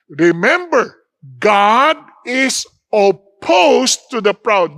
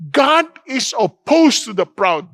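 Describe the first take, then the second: First: Each word of "God is opposed to the proud" drawn out slow and firm, stress on "God"; slow weighty quote. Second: Said in the usual way. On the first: Shown as a demonstration. Preacher reading the verse to his congregation, slow and weighty. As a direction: lean hard on "God", let the verse land slowly. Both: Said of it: "Sabi niya".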